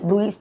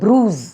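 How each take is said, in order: First: The word is said with two syllables. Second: The word is said with one syllable. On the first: The speaker calls it wrong. "நிறைய பேர் ப்ரூயிஸ் ப்ரூயிஸ் சொல்லுவாங்க" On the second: The speaker calls it right. "ஆனால் அது வந்து ப்ரூஸ்"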